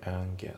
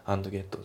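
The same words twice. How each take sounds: First: AND GET as "an-get"; dropped D. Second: AND GET as "ando getto"; katakana-style AND GET with added vowels; D fully sounded. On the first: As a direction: slide from N straight into GET. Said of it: "andのDがね". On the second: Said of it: "じゃなくて". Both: Shown as a demonstration.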